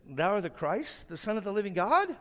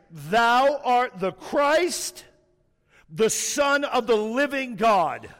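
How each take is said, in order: First: Soft, rising like a question; unsure, questioning tone. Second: Loud, very slow, every word weighted; emphatic statement. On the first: Peter answering Jesus as if guessing, questioning. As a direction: say the confession as a timid guess, lifting at GOD. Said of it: "he didn't give that tone". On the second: Peter confessing while eyeing the other disciples, emphatic. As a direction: declare it with no doubt or hesitation. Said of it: "it's an emphatic statement". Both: Shown as a demonstration.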